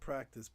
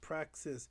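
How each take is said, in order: First: The word ends with a 'tis' sound. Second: The word ends with a 'ksis' sound. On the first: The speaker calls it wrong. "not practice" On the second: The speaker calls it right. "I gotta say it right"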